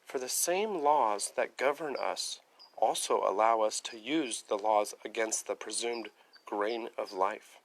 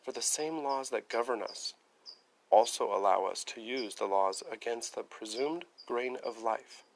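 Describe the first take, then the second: First: Reading aloud. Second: Deliberate, weighty second reading; slow emphatic reread. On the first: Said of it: "next paragraph". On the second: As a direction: lean on each word, slower this time. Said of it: "Listen to that again". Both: Shown as a demonstration.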